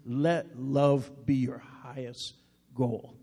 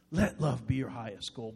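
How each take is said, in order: First: Slow verse reading. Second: Soft repeat. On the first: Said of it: "First Corinthians fourteen one says". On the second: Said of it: "Isn't that beautiful today?". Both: Shown as a demonstration.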